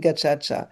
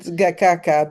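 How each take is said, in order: First: The middle consonants are pronounced as a 'ch' sound. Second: The middle consonants are pronounced as a 'k' sound. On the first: The speaker calls it right. "but it's actually gachacha" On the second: The speaker calls it wrong. "spelled gakaka because that's how it's spelled"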